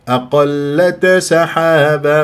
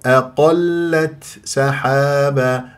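First: The t is released with a bouncing echo. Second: The t carries a light, gentle breathy release. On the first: The speaker calls it wrong. "ما أقلقل" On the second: The speaker calls it right. "لا بد من الهمس اللطيف"

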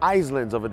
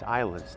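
First: The word has an S sound before the L. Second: The word has no S sound before the L. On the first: The speaker calls it wrong. "Eu já ouvi inúmeras pessoas, inúmeras vezes, falando" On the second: The speaker calls it right. "Eu sei que tem esse S aí, mas você vai perceber que algumas vezes em inglês, você não pronuncia as palavras do jeito que elas são escritas"

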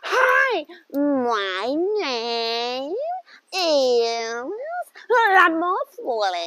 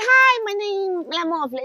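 First: It is said in a chewing-gum American accent. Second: It is said plainly, without the American drawl.

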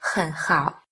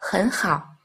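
First: The first syllable has a low dipping tone. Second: The first syllable has a rising tone. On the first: "ni hao hoặc hen hao đọc thành" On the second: "đọc thành ni hao, hen hao"

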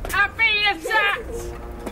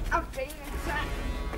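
First: It is said loudly. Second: It is said quietly.

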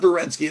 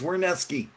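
First: The name begins with a V sound. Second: The name begins with a W sound. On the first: The speaker calls it wrong. "It's not Werneski. you're saying it sounds like a V?" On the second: The speaker calls it right. "It's W"

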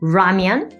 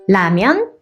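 First: It starts with an English-style R sound. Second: It starts with a plain Korean flap sound.

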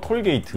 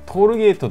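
First: It is said with an English pronunciation. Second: It is said with a Japanese pronunciation. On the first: "高速料金所をトルゲイトっていうね" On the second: "日本もトールゲートって言い方はする"

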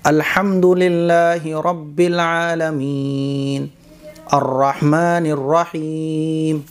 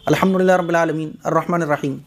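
First: It is recited slowly, with pauses and clear words. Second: It is recited quickly, with clipped, run-together words. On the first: The speaker calls it right. "ये ठहर ठहर कर है और साफ़ सुथरा है" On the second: The speaker calls it wrong. "लफ्ज़ कट भी रहे हैं"

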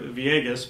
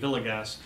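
First: The double L is said the Spanish way. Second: The double L is said the English way. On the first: "using the double L's that I learned in New Mexico" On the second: "it may be Villegas"

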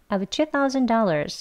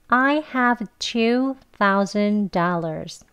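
First: The sentence is said quickly, with have reduced. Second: The sentence is said slowly and carefully. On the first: "빨리 발음을 하면요. I have에서 of 하는 것처럼 발음돼요" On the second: "천천히 같이 해볼게요"

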